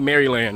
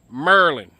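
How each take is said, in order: First: The name is said in an outsider's way. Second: The name is said in a local's way. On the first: The speaker is not from the area. The speaker calls it wrong. "don't say Maryland" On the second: The speaker is from the area. The speaker calls it right. "If they're from here, it's, it's Maryland ... like that, Merlin"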